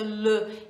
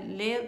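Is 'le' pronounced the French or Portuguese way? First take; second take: French; Portuguese. First: The word is said with a French pronunciation. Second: The word is said with a Portuguese pronunciation. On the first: The speaker calls it right. "a pronúncia certa é le" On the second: The speaker calls it wrong. "tô falando em português"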